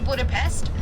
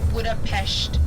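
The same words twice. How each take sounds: First: The last syllable ends with a plain s sound. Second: The last syllable ends with an sh sound. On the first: This is how visitors usually say the name. "we say Budapest" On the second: This is how locals say the name. "that's how you say it there with like the sh"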